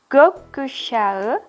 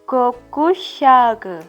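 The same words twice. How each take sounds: First: The soft g is silent or barely heard. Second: The g is pronounced as a hard g. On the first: The speaker calls it right. "Gökkuşağı dibaca demikian" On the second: The speaker calls it wrong. "bukan dibaca gökkuşağı"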